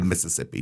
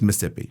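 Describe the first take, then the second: First: The word is said with all four syllables. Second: The word is shortened to three syllables. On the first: The speaker calls it wrong. "you don't say Mississippi" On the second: The speaker calls it right. "It's Mississippi"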